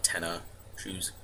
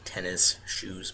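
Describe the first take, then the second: First: Tenna shoes with the s of tennis dropped; family pronunciation. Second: Said in the usual way. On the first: Shown as a demonstration. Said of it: "but we call it tenna shoes". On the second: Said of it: "even though it's, like, tennis shoes".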